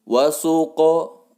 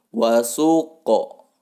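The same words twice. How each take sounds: First: The q sound bounces into a short o. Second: The same.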